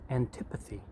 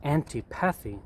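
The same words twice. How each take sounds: First: The word is pronounced in its standard form. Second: The word is pronounced the way it is spelled. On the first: The speaker calls it right. "the correct pronunciation is antipathy" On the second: The speaker calls it wrong. "It looks like antipathy"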